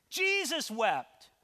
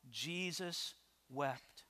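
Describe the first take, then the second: First: Slow, high and forceful proclamation; emphatic. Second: Hushed, slow and low, with weight; solemn. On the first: Preacher proving to the congregation there's no shame in tears, emphatic. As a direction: drive the verse home, stretching both words. Repeats verse as forceful proof. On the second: Preacher quoting the verse to the congregation, solemn and hushed. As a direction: let the verse fall softly, word by word. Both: Acted.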